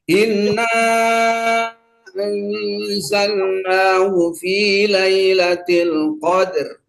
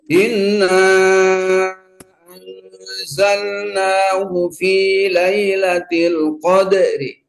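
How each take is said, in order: First: The last word ends on the consonant, no vowel. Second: The last word ends with a faint i vowel. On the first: "sekarang yang sukun dulu" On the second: "sekarang yang raum"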